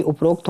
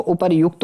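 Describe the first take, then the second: First: "उपरोक्त" with "rok" before the t; o in middle. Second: "उपरयुक्त" with "yuk" before the t; yu in middle. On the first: Teacher showing students the mistake, उपरोक्त with "rokt". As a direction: say उपरोक्त as "uprokt". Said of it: "ना कि उपरोक्त होता हो". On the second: Teacher giving students the correction, उपरयुक्त with "yukt". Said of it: "उपरयुक्त होता है". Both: Shown as a demonstration.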